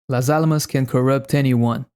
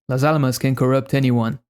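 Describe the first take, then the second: Both takes have the same delivery.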